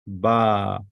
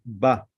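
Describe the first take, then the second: First: BA with the vowel held long. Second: BA with a short, quickly cut vowel. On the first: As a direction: stretch "Ba" out on a long, steady vowel. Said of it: "But this is a long". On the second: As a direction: say "ba" short, not held. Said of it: "If it was a short, we say". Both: Shown as a demonstration.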